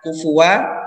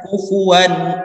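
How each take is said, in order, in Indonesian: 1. Kata ini berakhir tanpa bunyi sengau sama sekali. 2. Kata ini berakhir dengan n yang diucapkan dengan jelas. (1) "atau bukan kufua" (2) "tapi menjadi uh, n akhirnya. Kufuwan ahad. Jelas"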